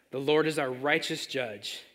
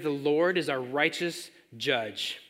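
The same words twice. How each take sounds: First: Slower, weighty repeat; slow restated emphasis. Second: Slowed, deliberate statement; slow emphasis. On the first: Preacher repeats the line slowly for the congregation. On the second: Preacher slowly drives home the point to the congregation. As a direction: lay each word down slowly. Stressing key phrase. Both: Acted.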